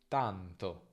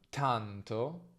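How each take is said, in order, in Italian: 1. La t non ha un soffio d'aria dopo. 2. La t ha un soffio d'aria dopo.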